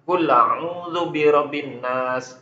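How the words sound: Kul runs straight into the next word. "kalau nakalnya dia dibaca kula'u"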